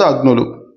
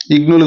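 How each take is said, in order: First: అగ్నులు starting with "a"; correct first vowel. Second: ఇగ్నులు starting with "i"; wrong first vowel. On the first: Teacher correcting to the right word, అగ్నులు with initial "a". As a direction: open అగ్నులు on a short "a". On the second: Teacher rejecting a wrong split, ఇగ్నులు with initial "i". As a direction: open ఇగ్నులు on a short "i". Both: Shown as a demonstration. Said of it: "ఇగ్నులు కాదు".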